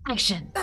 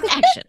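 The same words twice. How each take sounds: First: Said in the usual way. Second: Enthusiastic call. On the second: Shown as a demonstration.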